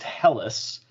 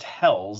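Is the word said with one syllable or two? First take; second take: Two; One. First: The word is said as two syllables. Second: The word is said as one syllable. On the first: The speaker calls it right. "It's actually pronounced Helles" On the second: The speaker calls it wrong. "it's actually not pronounced Hells"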